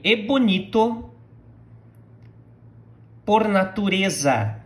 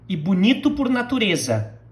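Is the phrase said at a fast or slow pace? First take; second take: slow; fast. First: The phrase is said slowly and carefully. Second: The phrase is said at normal speaking speed. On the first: "now repeat after me" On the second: "the way I would say it in a normal uh, pace"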